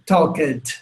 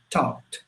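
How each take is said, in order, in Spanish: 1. La terminación se dice como una sílaba separada. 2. La terminación se dice como una t suave. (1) "queremos pronunciar esas letras como ed" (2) "se pronuncia como una T muy suavecita"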